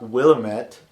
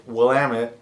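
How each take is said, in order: First: "Willamette" as WIL-a-MET; the wrong "Willamette", stress moved off the middle; mispronounced Willamette. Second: "Willamette" as wil-LAM-it; "Willamette" with a strong second syllable and weak ending; local pronunciation. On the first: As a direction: say "Willamette" with a full "met" ending. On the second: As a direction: stress the middle of "Willamette", rhyming with "dammit". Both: Shown as a demonstration. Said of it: "not Willamette".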